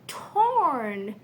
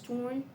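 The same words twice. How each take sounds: First: The word is articulated clearly with an open mouth. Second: The word is mumbled with little mouth opening. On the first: The speaker calls it right. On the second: The speaker calls it wrong.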